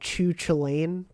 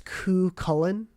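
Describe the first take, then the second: First: The name is said like 'Chu Chilane'. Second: The name is said like 'Ku Cullen'. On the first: The speaker calls it wrong. "I believe we were saying uh, Chu Chilane quite a bit" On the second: The speaker calls it right. "it's Ku Cullen or Ku Cullan"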